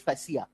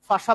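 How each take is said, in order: First: It is said in three syllables, 'fa-si-ya'. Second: It is said in two syllables, 'fa-sha'. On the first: Doctors do not say it this way. The speaker calls it wrong. "They don't call it फैसिया" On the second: This is how doctors say it. The speaker calls it right. "हर एक doctor फाशा pronounce करता है"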